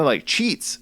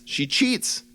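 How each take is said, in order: First: Said in the usual way. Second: "She cheats." said much higher, with cheats punched; stressed repeat. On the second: Shown as a demonstration. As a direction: hit cheats with a high emphatic jump.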